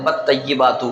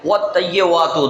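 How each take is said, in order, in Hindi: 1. दोनों मुख्य व्यंजन b की तरह बोले जाते हैं। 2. दोनों मुख्य व्यंजन w की तरह बोले जाते हैं। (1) "बहुत से दोनों तरफ बा पढ़ देते हैं" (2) "दोनों तरफ वाव पढ़ देते हैं"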